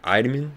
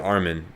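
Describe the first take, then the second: First: The name is said the Japanese way. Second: The name is said the English way. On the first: "is how they say it in in the Japanese sub" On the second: "I say Armin just because it sounds better"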